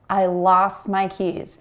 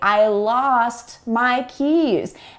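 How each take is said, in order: First: Said quickly, with the T sound dropped. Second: Said carefully, with every sound including T pronounced. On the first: This is everyday natural speech. "this is how native English speakers actually pronounce these sounds when we speak quickly" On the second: The speaker wants to be sure the listener understands. "I would carefully enunciate every sound"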